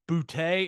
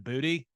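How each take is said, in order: First: The name ends on a plain 't' sound. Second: The name ends with an added 'ee' sound. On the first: This was how the name used to be said. "That guy's name was Butte" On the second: This is how the name is said now. "and then it went to Booty"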